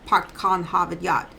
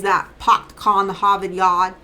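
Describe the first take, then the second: First: Clipped-vowel Massachusetts accent, R dropped; short vowels, Boston accent, no R; South Shore Boston accent. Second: Massachusetts accent with dropped R, long vowels; slow, stretched Boston vowels, no R; North Shore Boston accent. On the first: Contrasting the two shores, in a South Shore accent. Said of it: "shortened vowels, dropped R's". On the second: Explaining the local accent to viewers, in a Boston accent. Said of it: "most common accent that people know of for Massachusetts is". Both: Shown as a demonstration.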